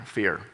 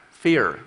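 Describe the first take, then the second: First: Ominous fear. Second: Said in the usual way. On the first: Shown as a demonstration. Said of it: "a kind of a bad-feeling word". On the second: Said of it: "content is the word up there".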